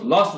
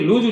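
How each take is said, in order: First: It has a short 'o' vowel ending in 's'. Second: It has a long 'oo' vowel ending in 'z'. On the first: The speaker calls it wrong. "অনেকে ভুল করে লস লস বলে" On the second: The speaker calls it right. "লুজ উচ্চারণ হয়"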